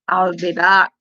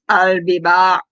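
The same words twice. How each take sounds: First: It is said in the speaker's own plain voice. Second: It is said in an imitated Austrian accent.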